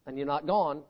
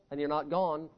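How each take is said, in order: Both takes have the same delivery.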